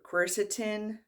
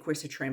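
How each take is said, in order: First: The word ends with a plain 'tin' sound. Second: The word ends with a 'trin' sound. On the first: The speaker calls it right. "It's like T I N" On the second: The speaker calls it wrong. "I always want to say quercitrin, but it's not trin"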